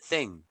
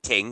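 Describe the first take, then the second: First: The word begins with a th sound. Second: The word begins with a plain t sound. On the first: This is how the singer actually sings it. The speaker calls it right. "He pronounces it thing" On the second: This is how most people remember the lyric. The speaker calls it wrong. "he doesn't pronounce it ting"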